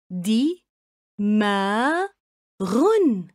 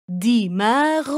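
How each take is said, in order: First: دماغ split into separate syllables دي، ما، غن. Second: Said in the usual way. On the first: Shown as a demonstration. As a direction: say دماغ as three clipped beats with pauses. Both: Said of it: "قطعوا الكلمة إلى مقاطع صوتية".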